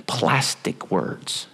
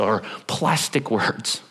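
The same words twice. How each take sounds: First: PLASTIC hushed and drawn out, very slow; whispered stress on plastic. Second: Plastic drawn out and softer; slow down and land on Plastic; slow stress on plastic. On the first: Preacher defining a Greek word for the church, hushed and slow. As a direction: lean in and breathe the word Plastic. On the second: Preacher repeating the Greek meaning to the congregation, slow and soft. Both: Shown as a demonstration.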